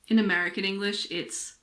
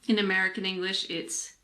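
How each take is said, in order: Both takes have the same delivery.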